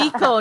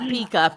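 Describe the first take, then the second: First: The word ends with an 'o' vowel sound. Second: The word ends with an 'a' vowel sound. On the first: The speaker calls it right. "Pico, not Pika" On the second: The speaker calls it wrong. "not Pika"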